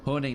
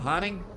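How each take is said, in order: First: It is said in the speaker's plain accent. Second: It is said in an imitated Australian accent.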